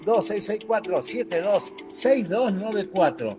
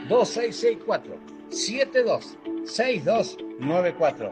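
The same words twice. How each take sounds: First: The number is said fast. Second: The number is said slowly.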